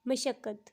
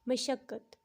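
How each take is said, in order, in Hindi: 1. पहला स्वर 'a' है, जैसे mashaqqat में। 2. पहला स्वर 'a' है, जैसे mashaqqat में।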